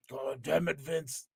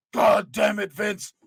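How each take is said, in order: First: Said in the usual way. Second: Botched impression. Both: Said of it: "I lost it".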